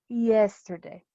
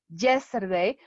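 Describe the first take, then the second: First: It starts with a soft, vowel-like y glide. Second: It starts with a hard j-like sound. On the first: The speaker calls it right. "La Y funciona como una I" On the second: The speaker calls it wrong. "no decimos yesterday"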